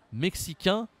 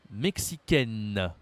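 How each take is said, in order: First: MEXICAIN with a nasal "ain", silent n; higher, rising "mexicain", no n heard; masculine pronunciation. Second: MEXICAINE slow, ending "-kenn" with sounded n; feminine pronunciation. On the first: Teacher demonstrating endings to a learner, masculine pronunciation. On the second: Teacher demonstrating endings to a learner, feminine pronunciation. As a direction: draw out the final n of "mexicaine", falling. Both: Shown as a demonstration. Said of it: "Prononciation avec A I N".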